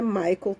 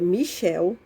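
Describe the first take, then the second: First: The name is said like English Michael. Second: The name is said like French Michel. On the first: The speaker calls it wrong. "não é Michael" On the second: The speaker calls it right. "É Michel"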